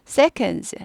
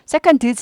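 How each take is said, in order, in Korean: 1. d 소리가 삼켜져서 거의 안 들려요. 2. d 소리가 분명하게 발음돼요. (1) "드가 발음이 묻힙니다" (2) "seconds 안 해요"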